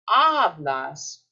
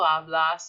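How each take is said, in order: First: The stress is on the first syllable. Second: The stress is on the last syllable. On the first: The speaker calls it right. "this second to last syllable is here" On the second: The speaker calls it wrong. "It's not hablo, hablas"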